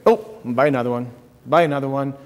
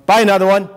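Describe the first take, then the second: First: Said in the usual way. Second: Higher, louder pushy coaxing; mock insistent tempter; rising urge. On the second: Shown as a demonstration. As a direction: press it, like a tempter egging on. Mocking Satan's coaxing.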